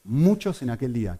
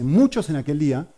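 First: Said in the usual way. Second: "Muchos" pushed harder and higher; "Muchos" stressed, a touch louder. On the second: Shown as a demonstration. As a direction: lean hard on "Muchos". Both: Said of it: "no dice pocos".

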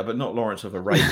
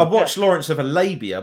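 First: A lower, knowing hint that it's a different Lawrence of Arabia; knowing innuendo. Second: Said in the usual way. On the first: Pretend. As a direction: wink at the dirty version, stress on not. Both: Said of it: "that was porn".

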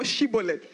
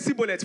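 First: "Shibboleth" opening with a clear SH sound; correct "Shibboleth". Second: "Shibboleth" said as "Sibboleth", S replacing SH; mispronounced Shibboleth. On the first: Shown as a demonstration. Gileadites testing men of Ephraim, "Shibboleth" pronounced with SH. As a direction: say "Shibboleth" with SH as in "ship". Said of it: "Men of Ephraim cannot say Shibboleth".

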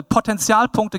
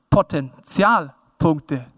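First: Said in the usual way. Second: Potenzialpunkte drawn out in separate chunks; very slow, measured "Potenzialpunkte"; slow emphasis. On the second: Real, not acted. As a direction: spell out "Potenzialpunkte" slowly, piece by piece. Repeats preferred term for emphasis.

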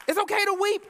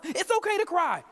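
First: OKAY lifted higher and louder on the repeat; escalating preacher's cry. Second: Said in the usual way. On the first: Shown as a demonstration. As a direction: push the second line harder, higher and louder. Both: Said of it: "let's start telling our young sons".

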